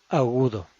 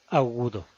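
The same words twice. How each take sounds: No difference in how they are said.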